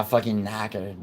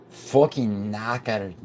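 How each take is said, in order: First: Said in the usual way. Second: Put-on slow, drawn-out Scottish accent; Scottish-accented, savouring each word. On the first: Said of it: "I can't say knackered in a". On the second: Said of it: "anything but a Scottish accent".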